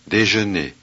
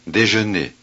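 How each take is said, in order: Both takes have the same delivery.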